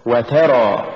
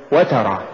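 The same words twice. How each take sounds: First: وترى with و set apart and ترى pushed; push after waw. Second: وترى short, run into one word; wrong stress. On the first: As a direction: lean on the ت and draw out وترى. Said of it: "ومثال الواو". (نطق وترى بدفع التاء بعد الواو) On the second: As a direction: say وترى quickly, weight on the و. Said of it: "ولا تقل". (نطق وترى دون دفع التاء) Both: Shown as a demonstration.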